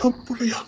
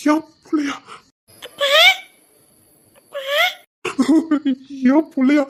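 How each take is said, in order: First: Stunned whisper. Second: Louder and higher each time, from shock to outcry; rising disbelief. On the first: To his sister, learning the child is his: shocked whisper. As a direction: breathe it out, unvoiced and disbelieving. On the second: To his sister, realising he is a father: rising cry. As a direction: let the disbelief burst out. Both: Acted.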